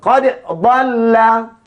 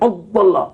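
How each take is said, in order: First: The d is said clearly before the next sound. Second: The d is merged into the following sound. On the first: The speaker calls it right. "huruf dal ini mesti dibaca dengan terang dan nyata" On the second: The speaker calls it wrong. "Tak boleh baca qad dhalla. Jangan masuk dalam dad"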